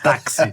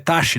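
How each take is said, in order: First: The x is pronounced like 'ks'. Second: The x is pronounced like 'sh'. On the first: The speaker calls it right. "Aqui esse X tem som de K S" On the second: The speaker calls it wrong. "então é taxi. Não, não"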